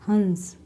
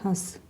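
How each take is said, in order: First: The nasal is a full consonant sound. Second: The vowel itself is nasalized. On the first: It means a swan, a water bird. "अनुस्वार use किया गया, बिंदु का use किया गया, तो हम इसे पढ़ रहे हैं हंस" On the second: It means the act of laughing. "चंद्राकार बिंदु का यूज करने से हम इसे पढ़ेंगे हंस"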